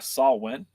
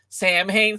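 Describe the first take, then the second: First: The name is said as 'saw win'. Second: The name is said as 'sam hain'. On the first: The speaker calls it right. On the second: The speaker calls it wrong.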